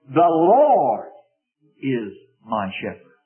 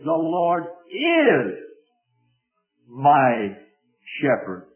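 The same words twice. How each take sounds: First: The stress is on Lord. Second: The stress is on is.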